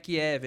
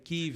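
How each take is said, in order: First: The name is said in its long-used Portuguese form. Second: The name is said in its newly adopted form. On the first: This is the form people are now rejecting. The speaker calls it wrong. "não é Kiev" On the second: This is the form people now insist on. The speaker calls it right. "é Kiev"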